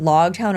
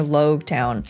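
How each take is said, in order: First: "Logtown" with open LAWG, as in prologue; Logtown with short o. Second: "Logtown" said as LOHG-town; Logtown with long o. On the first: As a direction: say "Logtown" with log rhyming with dog. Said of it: "pronunciation of Logtown is, like, epilogue or prologue". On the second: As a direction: say "Logtown" with log rhyming with rogue. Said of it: "Is it Logtown or Logtown?". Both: Shown as a demonstration.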